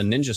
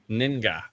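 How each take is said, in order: First: The middle consonant is a soft J sound. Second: The middle consonant is a hard G sound. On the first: "If I pronounced that wrong" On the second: "It could be Ga"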